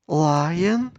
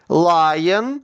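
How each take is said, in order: First: The word is said even more quietly. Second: The word is said loudly. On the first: "тихіше" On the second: "Голосно"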